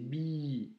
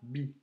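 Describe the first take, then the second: First: The vowel is held long. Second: The vowel is kept short. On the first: The speaker calls it right. "la lettre B avec un i long, c'est bi" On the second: The speaker calls it wrong. "c'est pas bi"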